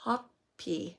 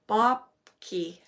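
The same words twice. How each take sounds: First: "Hokpi" with the B dropped, softer; second try at the name. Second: "Bhokpi" said with a B sound at the start; first try at the name. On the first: Reader correcting herself, saying "Hokpi" without the B, quieter. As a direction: say "Hokpi" starting on H, trailing off. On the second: Reader trying out the archangel's name, saying "Bhokpi" with a B. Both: Shown as a demonstration. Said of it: "let's see if I can pronounce this".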